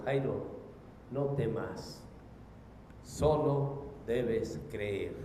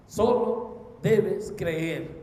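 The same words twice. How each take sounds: First: Low, slow, tender words of comfort; deep calm, unhurried and soft; calm reassurance. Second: "Solo debes creer" very slow and firm, each word set apart; "Solo debes creer" drawn out with firm weight; emphatic repetition. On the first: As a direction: reassure a frightened father slowly and gently. Voices Jesus reassuring Jairo. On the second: Repeats Jesus' words for emphasis. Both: Acted.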